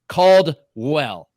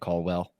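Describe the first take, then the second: First: The D in the middle is clearly pronounced. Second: The D in the middle is slurred away. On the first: The speaker calls it right. "I made sure to hit Caldwell" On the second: The speaker calls it wrong. "I've just been kind of like mushing it together"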